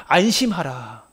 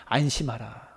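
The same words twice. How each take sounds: First: Very slow, gentle reassurance; tender. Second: Soft and much lower; tender. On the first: Jesus calming the trembling Bartimaeus, slow and gentle. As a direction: stretch it out to calm him. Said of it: "그에게 말씀하시는 거예요". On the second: Jesus's first word to the blind man, soft. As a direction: hush him with comfort. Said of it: "첫 번째 말씀이". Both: Acted.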